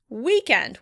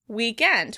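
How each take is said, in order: First: The stress is on the first syllable. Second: The stress is on the second syllable. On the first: "with stress on the first syllable" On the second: "British pronounce it weekend"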